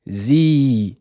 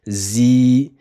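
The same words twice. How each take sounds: No difference in how they are said.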